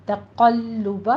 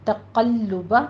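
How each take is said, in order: First: تَقَلُّبَ slow, heavy qaf, doubled lam, light ta. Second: تَقَلُّبَ with a heavy qaf and doubled lam. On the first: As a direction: recite تَقَلُّبَ slowly with the lam held. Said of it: "باریک رکھیے". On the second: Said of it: "تشدید ادا کیجیے". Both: Shown as a demonstration.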